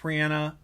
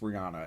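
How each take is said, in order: First: The name is said the singer's own way. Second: The name is said the common American way. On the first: This is how the singer herself says it. "her name is pronounced [name]" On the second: This is how most people in America say it. "It's Rihanna in America"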